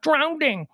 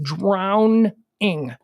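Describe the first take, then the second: First: It is said with a d before -ing. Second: It is said without a d before -ing. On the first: The speaker calls it wrong. "It's not drowning" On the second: The speaker calls it right. "There's no D"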